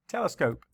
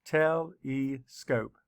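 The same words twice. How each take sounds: First: Said in the usual way. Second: Telescope said slowly, te-le-scope; syllables split. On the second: Shown as a demonstration. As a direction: pace out Telescope beat by beat. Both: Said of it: "Let's count the syllables".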